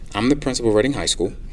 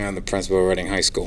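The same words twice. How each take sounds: First: It is said proudly, with confidence. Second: It is said flatly, without pride. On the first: The speaker is proud of the school. The speaker calls it right. "I can stand proudly and say" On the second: The speaker was not proud of the school. The speaker calls it wrong. "three months ago, if someone asked me what I did, I'd probably say"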